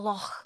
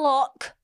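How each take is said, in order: First: It ends with a soft throaty sound. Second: It ends with a hard k sound. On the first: The speaker calls it right. "You have to say it like that" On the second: The speaker calls it wrong. "It's not a lock"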